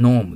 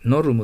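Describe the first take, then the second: First: "ノーム" with a long o and no ru sound; English pronunciation. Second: "ノルム" read letter by letter, with a ru for the R; romaji reading. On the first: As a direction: stretch the vowel of "ノーム", louder, dropping the R. (英語発音の「ノーム」、ルを入れずに伸ばす) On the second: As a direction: sound the R in "ノルム" as Japanese ru. (ローマ字読みの「ノルム」) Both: Shown as a demonstration. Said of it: "ローマ字読みしてみてください".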